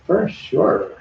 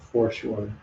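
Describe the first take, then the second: First: Put-on high Valley Girl "For sure"; "For sure" pitched up and drawn out. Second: Said in the usual way. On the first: Shown as a demonstration. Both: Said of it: "Now I sound like a Valley Girl".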